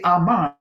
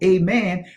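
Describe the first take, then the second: First: The word begins with an open 'ah' sound. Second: The word begins with an 'ay' sound. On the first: This is the original root form. "that's the primitive root" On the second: This is the Greek form. "That's getting into the Greek pronunciation of that"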